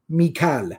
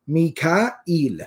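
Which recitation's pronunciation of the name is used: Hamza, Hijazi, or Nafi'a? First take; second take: Hijazi; Hamza. First: The name is said in the Hijazi form. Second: The name is said in Hamza's form. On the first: This is the form used by the tribes of Hijaz. "Mikael was the pronunciation according to the tribes of Hijaz" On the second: This is the form borrowed into Farsi and Urdu. "they pronounce it as Mikael"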